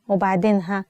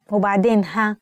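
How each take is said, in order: Both takes have the same delivery.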